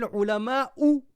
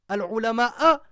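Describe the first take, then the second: First: The word ends with a 'u' vowel. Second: The word ends with an 'a' vowel. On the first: The scholars are the ones who fear. The speaker calls it right. "Ulama ou, c'est le sujet" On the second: The scholars become the ones who are feared. The speaker calls it wrong. "c'est une énorme faute"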